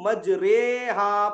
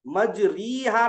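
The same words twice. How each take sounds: First: मजरेहा with a long drawn "ray"; imala "ay" reading. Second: मजरीहा with a clear long ee after r; maroof "ee" reading. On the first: Teacher showing the class imala, मजरेहा with long ay. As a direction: stretch मजरेहा slowly, ay in place of ee. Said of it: "मजरेहा पढ़ेंगे इसको". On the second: Teacher showing what not to recite, मजरीहा with ee. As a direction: say मजरीहा with "ree" in the middle. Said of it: "मजरीहा नहीं पढ़ेंगे इसको". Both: Shown as a demonstration.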